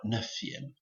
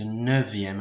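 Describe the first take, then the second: First: The middle consonant is a voiceless f sound. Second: The middle consonant is a voiced v sound. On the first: The speaker calls it wrong. "and not neuvième" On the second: The speaker calls it right. "it goes to neuvième"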